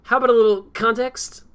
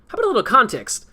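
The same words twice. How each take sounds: First: The word context is said haltingly, tripping over it. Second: The word context is said smoothly, without hesitation.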